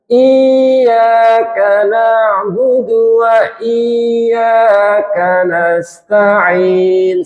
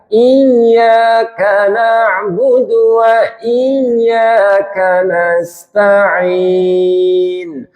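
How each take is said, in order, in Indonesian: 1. Huruf i dipanjangkan sebagai gantinya. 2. Bunyi y digandakan dan ditekan. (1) "Tidak boleh dibaca mat asli" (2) "Jadi ditekan"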